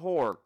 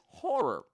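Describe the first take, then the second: First: The word is said with one syllable. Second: The word is said with two syllables.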